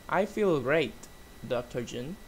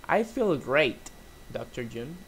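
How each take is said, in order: The two takes are said the same way.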